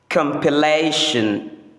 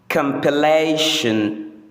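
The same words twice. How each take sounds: No difference in how they are said.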